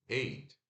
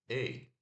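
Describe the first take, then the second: The two takes are said the same way.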